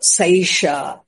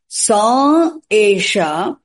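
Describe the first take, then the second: First: The two words are merged into one sound. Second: The two words are said apart, unmerged. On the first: "Vruddhi Sandhi" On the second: "You break the sentence"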